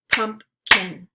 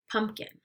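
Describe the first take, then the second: First: "Pumpkin" as two separate beats, Pump – kin; syllables split apart. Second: Said in the usual way. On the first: Shown as a demonstration. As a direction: say "Pumpkin" syllable by syllable, pausing between. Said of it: "give you the parts of the syllable". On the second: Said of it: "blend it together".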